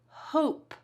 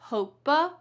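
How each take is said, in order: First: The word ends on a plain p sound. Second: The word ends with an extra uh vowel. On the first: The speaker calls it right. "We say hope, that E is silent" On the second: The speaker calls it wrong. "not hopa"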